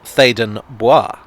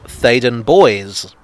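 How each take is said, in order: First: The second word is given a French pronunciation. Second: The second word is given an English pronunciation. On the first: The speaker calls it wrong. "spelt in a rather French manner, it should be pronounced as such" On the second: The speaker calls it right. "it's actually pronounced"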